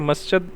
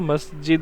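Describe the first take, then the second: First: The middle consonant is said as 'ch'. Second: The middle consonant is said as 'j'. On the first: The speaker calls it wrong. "जे जीम को चे बोल देते हैं। ... मस्जिद ना हो" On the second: The speaker calls it right. "मस्जिद हो"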